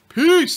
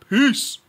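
First: It is said in a normal voice. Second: It is said in a deep, bassy voice.

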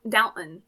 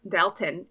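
First: The t in the middle is swallowed. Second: The t in the middle is clearly pronounced. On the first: The speaker calls it right. "Like you like swallow the tea" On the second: The speaker calls it wrong. "it's not Dalton"

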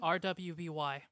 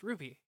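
First: The name is spelled out letter by letter. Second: The name is said as one word. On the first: The speaker calls it wrong. "you actually spelled it out" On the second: The speaker calls it right. "It's pronounced Ruby"

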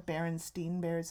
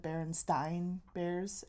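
First: The name ends with a 'steen' sound. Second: The name ends with a 'stain' sound. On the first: This is how people misremember the name. The speaker calls it wrong. "It's not the" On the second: This is the real name. The speaker calls it right. "It's the"

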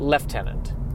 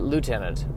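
First: It is said with an f sound. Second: It is said without an f sound. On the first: "The British say Lieutenant. I don't know where that got that F" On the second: "the Americans say Lieutenant"

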